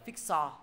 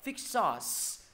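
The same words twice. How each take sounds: First: FIX SAUCE as "fik so"; final s dropped. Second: FIX SAUCE ending in a long hiss; with final s. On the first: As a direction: leave the hiss off the end of SAUCE. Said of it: "thầy không dạy mọi người là". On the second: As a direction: sound the s at the end of SAUCE. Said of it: "hướng dẫn mọi người đọc là". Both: Shown as a demonstration.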